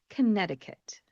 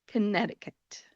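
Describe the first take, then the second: The two takes are said the same way.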